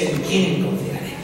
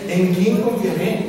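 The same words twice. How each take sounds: First: It is said as a statement, falling. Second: It is said as a question, rising.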